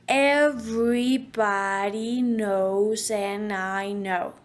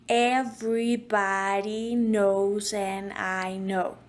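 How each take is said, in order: Both takes have the same delivery.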